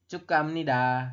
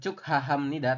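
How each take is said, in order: First: The middle 'ha' syllable is blended away. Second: The middle 'ha' syllable is fully pronounced. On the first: The speaker calls it right. "tapi cuk ham nida kayak gitu" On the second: The speaker calls it wrong. "Pengucapannya bukan cuk ha ham nida"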